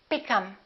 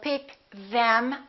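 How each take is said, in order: First: The th in 'them' is dropped. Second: The th in 'them' is clearly pronounced. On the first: "We drop this T H and we say" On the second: "we don't say"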